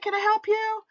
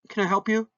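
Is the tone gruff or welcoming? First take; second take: welcoming; gruff. First: The voice sounds pleasant and welcoming. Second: The voice sounds gruff and unfriendly. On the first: The patient is welcome. "pleasant and welcoming" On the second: The patient is not welcome. "a very gruff"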